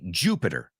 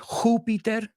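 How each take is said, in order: First: The word has English-style sounds. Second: The word has Spanish-style sounds. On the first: "We say Jupiter" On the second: "You guys say Jupiter"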